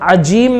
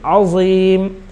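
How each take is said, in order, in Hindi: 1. "azim" में बीच का व्यंजन 'j' की ध्वनि है। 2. "azim" में बीच का व्यंजन 'z' की ध्वनि है। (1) "उसको जीम ना पढ़ें वरना जो है माना बदल जाएगा" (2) "आइन के बाद ज़ा है"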